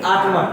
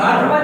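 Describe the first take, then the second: First: "आक्रमण" ending in a retroflex ण; correct pronunciation. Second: "आक्रमण" ending in a plain dental न; wrong pronunciation. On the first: Teacher correcting the common error, correct pronunciation. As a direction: curl the tongue back for ण in "आक्रमण". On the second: Teacher rejecting a common error, wrong pronunciation. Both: Shown as a demonstration. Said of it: "आक्रमण नहीं".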